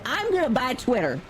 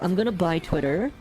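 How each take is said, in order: First: It is said with a Southern American accent. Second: It is said without a Southern American accent. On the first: "he didn't say it like that. He's not, te- he's not Texan or he's not Southern" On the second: "I'm trying to do a good imitation"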